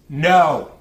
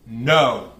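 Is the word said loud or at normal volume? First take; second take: loud; normal. First: The word is said loudly. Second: The word is said at normal volume.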